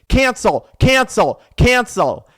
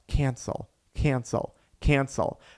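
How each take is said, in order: First: It is said forcefully and aggressively. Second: It is mumbled quietly under the breath. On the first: "a little more aggressive" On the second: "you could also mumble it"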